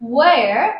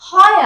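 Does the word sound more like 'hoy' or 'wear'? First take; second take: wear; hoy. First: The word sounds like 'wear' with a w glide. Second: The word sounds like 'hoy' with an open o. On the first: The speaker calls it right. "এটা হচ্ছে ওয়্যার হুইচ" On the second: The speaker calls it wrong. "আমরা বলি হয় আর হুইচ, তো এটা কিন্তু হয় আর না"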